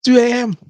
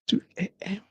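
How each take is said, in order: First: High, loud call of the hour; loud exclamation. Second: Soft, drained echo of the hour; hushed repeat. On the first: Parent up with a screaming baby at night, loud exclamation. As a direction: call out TWO A M, raised and high. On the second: Parent up with a screaming baby at night, hushed repeat. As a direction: say TWO A M quietly, trailing away. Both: Acted.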